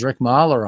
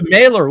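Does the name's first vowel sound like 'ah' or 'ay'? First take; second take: ah; ay. First: The first vowel is an 'ah' sound. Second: The first vowel is an 'ay' sound. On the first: The name is said like the German composer's. The speaker calls it wrong. "so I'm a classical music guy, so Gustav Mahler" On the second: The name is said the way the baseball player is known. The speaker calls it right. "sorry, Mailer"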